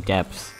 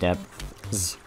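First: The th sound is dropped, sounding like deps. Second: The th sound is pronounced before the s. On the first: "I just say D-E-P-S" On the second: "instead of depths"

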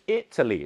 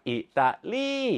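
First: The stress falls on the English-style syllable. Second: The stress falls on the Thai-style syllable. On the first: The speaker calls it right. "ในภาษาอังกฤษจะเป็นอิตาลี" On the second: The speaker calls it wrong. "สำเนียงไทยจะชอบเน้นตรงกันข้าม"

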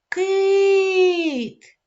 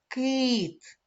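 First: The word is called out loudly, vowel drawn out. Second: The word is said calmly at normal loudness. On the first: "давайте погукаємо нашого друга" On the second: "Вимовляємо спокійно слово кит"

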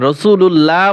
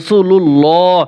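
First: The l sound is light and thin. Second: The l sound is heavy and thick. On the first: The speaker calls it wrong. "রাসূলুল্লাহ বলা যাবে না" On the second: The speaker calls it right. "এই আল্লাহ লামটা মোটা হবে"

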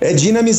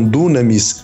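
First: The first vowel sounds like 'i'. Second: The first vowel sounds like 'u'. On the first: The speaker calls it right. "o Y quando não está em ditongo tem som de I" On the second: The speaker calls it wrong. "muitos falam dunamis"

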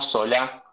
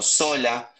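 First: The stress is on the last syllable. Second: The stress is on the first syllable. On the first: It names the current politician. The speaker calls it wrong. "no Sola, como el actual dirigente político" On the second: It names the historical governor. The speaker calls it right. "sin acento en la A"

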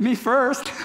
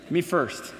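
First: It is said in a silly, clowning manner. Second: It is said in a forceful, intimidating tone. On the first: The speaker jokes about going ahead. "if you're that, you know, class clown" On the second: The speaker demands to go ahead of others. "That's kind of the intimidating way"

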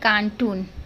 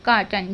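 First: The second syllable has a long 'oo' vowel. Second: The second syllable has a short, reduced vowel. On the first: The speaker calls it wrong. "हम बोलते हैं कार्टून, कार्टून नहीं बोला जाता" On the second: The speaker calls it right. "कार्टन बोला जाता है"

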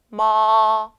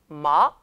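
First: The pitch stays high and level, held long. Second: The pitch rises quickly from middle to high. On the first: "1성" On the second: "2성"

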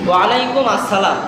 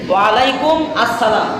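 First: 'Alaikum' and 'as-salam' are said as separate words. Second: The same.

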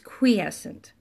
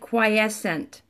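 First: The first syllable is said as 'kwee'. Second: The first syllable is not said as 'kwee'. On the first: The speaker calls it right. "But it's quiescent" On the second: The speaker calls it wrong. "So it looks like quiescent"

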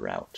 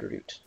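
First: Route is said in an American way. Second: Route is said in a non-American way.

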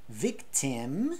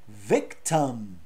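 First: The second vowel is a full vowel. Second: The second vowel is reduced to a schwa. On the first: The speaker calls it wrong. "a gente não fala victim" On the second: The speaker calls it right. "a gente fala victim"

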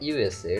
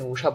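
First: It is said as three separate letter names. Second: It is said as one two-syllable word. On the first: The speaker calls it right. "এটা ইউএসএ, এটা আলাদা আলাদা উচ্চারণ" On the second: The speaker calls it wrong. "এটাকে আপনি উষা বলতে পারেন না"

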